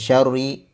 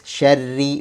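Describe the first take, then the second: First: The r sound is thick and heavy. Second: The r sound is thin and light. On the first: The speaker calls it wrong. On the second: The speaker calls it right. "huruf ra dibaca tipis"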